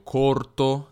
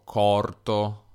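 First: "corto" with closed O, standard. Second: "corto" with open O, slow, Piedmont style. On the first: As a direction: say "corto" with a tight O. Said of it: "invece di dire". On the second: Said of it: "dico corto". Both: Shown as a demonstration.

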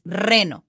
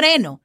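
First: Reno with a long trilled R; Spanish reno, R fully trilled; correct rolled R. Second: Reno with no trill on the R; wrong weak R. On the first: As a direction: roll the R firmly in reno. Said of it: "It's reno". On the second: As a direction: skip the roll in reno. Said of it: "it's not reno". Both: Shown as a demonstration.

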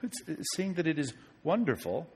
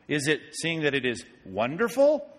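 First: Said in the usual way. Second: Wonderful rising as a real question; questioning tune. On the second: Shown as a demonstration. Preacher rephrasing the verse as a question, wonderful rising. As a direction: ask it back, lifting on wonderful.

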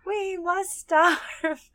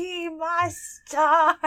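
First: High, very slow whining creature; Smeagol voice. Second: High, slow whining creature; Smeagol voice. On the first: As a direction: drag it out like Smeagol. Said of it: "I love the". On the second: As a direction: stretch it like a wailing Smeagol. Quoting Smeagol in character. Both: Retold or imitated.

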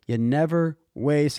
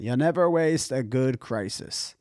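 First: Said in the usual way. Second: Lightly imitated European accent. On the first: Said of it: "he said it in this". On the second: Host quoting a summit speaker, European accent. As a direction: quote it with a hint of a European accent. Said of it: "like, European accent".

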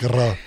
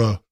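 First: "R" as a trilled Slavic R. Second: "R" as an untrilled American "ruh". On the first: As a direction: roll the "R" with a tapping tongue, Slavic style. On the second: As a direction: say "R" American style, without any tongue trill. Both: Shown as a demonstration. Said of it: "You don't do the Slavic R".

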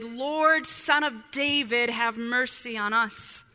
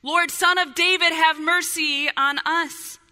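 First: Mild shout. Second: Raised, higher-pitched cry for mercy; louder shout. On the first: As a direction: read as a restrained call. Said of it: "they shouted". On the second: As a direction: shout it out loud, drawing out the plea. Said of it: "they shouted all the louder". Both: A narrator's reading.

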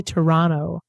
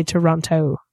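First: Toronto said as Toronno, no t after the n; local Toronto pronunciation. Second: Toronto with the t fully sounded, Tor-on-to; her own pronunciation. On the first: Host telling how Canadians say their city, Toronto as Toronno. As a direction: say Toronto the way locals do, dropping the second t. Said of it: "they say Toronto". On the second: Host contrasting her own Toronto, all t sounds kept. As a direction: say Toronto the Midwestern way, every t clear. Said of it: "I say Toronto". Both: Shown as a demonstration.

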